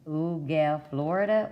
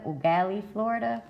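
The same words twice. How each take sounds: First: "Ugal" attempted as two syllables, without a final ee; tentative pronunciation. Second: "Ugali" with an added final ee sound; second pronunciation attempt. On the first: Reader attempting an unfamiliar town name, "Ugal" without final ee. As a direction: try "Ugal" ending on the l. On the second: Reader correcting an unfamiliar town name, "Ugali" ending in ee. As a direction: end "Ugali" on ee, lifting into Florida. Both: Real, not acted. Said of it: "Hopefully I said that right".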